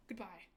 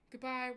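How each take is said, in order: First: Said in the usual way. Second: A bigger, louder second goodbye. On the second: Shown as a demonstration.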